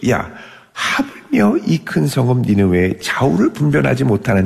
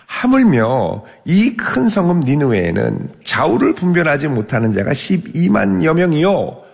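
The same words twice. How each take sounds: First: Gentle, merciful asking. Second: 하물며 raised, slow, with weight; emphatic reading. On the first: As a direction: ask it tenderly like a patient father. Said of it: "부드럽고 자비롭게 물어보죠". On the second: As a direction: lean on 하물며 and draw the verse out slowly. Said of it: "God's words read emphatically". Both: Acted.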